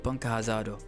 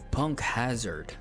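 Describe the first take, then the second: First: It is said with a Japanese pronunciation. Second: It is said with an English pronunciation. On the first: "I called them with the Japanese, you know, accent" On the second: "struggling with the English names"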